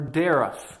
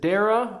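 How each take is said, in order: First: The name ends with an f sound. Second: The name ends on a vowel, no f sound. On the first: "Like a cough, the G H in a cough" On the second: "a G H as in ah, like though"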